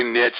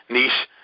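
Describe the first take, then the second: First: "niche" said to rhyme with "pitch"; niche as "nitch". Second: "niche" said to rhyme with "leash"; niche as "neesh". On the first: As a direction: end "niche" on a tch sound, short i. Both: Shown as a demonstration. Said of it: "people from France probably say niche".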